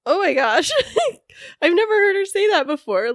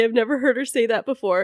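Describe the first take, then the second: First: Laughing in disbelief; high, laughing through the words. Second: Said in the usual way. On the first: Real, not acted. Stunned by sister's tribute.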